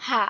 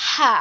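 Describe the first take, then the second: First: An easy, open হা with no throat pressure; open-throat pronunciation. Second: হা pressed through a tightened mid-throat; squeezed-throat pronunciation. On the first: Teacher contrasts small ha, freely released হা. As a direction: let হা fall out as when simply opening the mouth. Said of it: "যেমন আমরা এমনিতেই হা করি". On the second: Teacher contrasts big ha, squeezed-throat হা. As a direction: constrict the throat to push out হা. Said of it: "গলা চেপে উচ্চারণ করতে হবে". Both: Shown as a demonstration.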